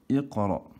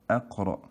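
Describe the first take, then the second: First: The word begins with an 'i' vowel. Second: The word begins with an 'a' vowel. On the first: The speaker calls it right. "alors que c'est iqra" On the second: The speaker calls it wrong. "beaucoup d'élèves se trompent, ils lisent ça"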